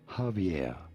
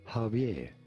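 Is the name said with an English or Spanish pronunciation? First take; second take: English; English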